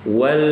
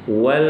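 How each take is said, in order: Both takes have the same delivery.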